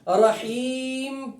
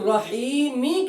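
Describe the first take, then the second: First: The word ends on a bare, silent m. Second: The word ends with a short i vowel after m. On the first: The reader stops at this word. "ये सुकून इसके ऊपर लाते हैं, आरिज सुकून है" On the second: The reading continues without stopping. "रहीमी असल इसके नीचे क्या है? ... असल इसके नीचे जेर है"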